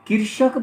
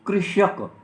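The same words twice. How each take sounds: First: The word is pronounced in a careless, hasty way. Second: The word is pronounced in a careful, standard way. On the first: The speaker calls it wrong. "ये कृषक बोल जाते हैं" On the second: The speaker calls it right. "कृषक शब्द होता है"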